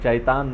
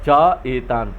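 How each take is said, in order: First: The two words merge into one syllable. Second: The two words are said apart. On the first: The speaker calls it wrong. "चैतान नहीं है" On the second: The speaker calls it right. "च एतान पढ़ेंगे हम इसको"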